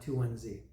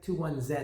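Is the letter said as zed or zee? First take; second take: zee; zed. First: The letter Z is said as zee. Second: The letter Z is said as zed.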